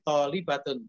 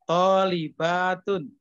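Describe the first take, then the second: First: The vowel after the b is cut short. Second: The vowel after the b is held long. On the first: It sounds like one female student. The speaker calls it wrong. "Baknya masih pendek" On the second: It names many female students. The speaker calls it right. "Baknya itu dipanjangkan"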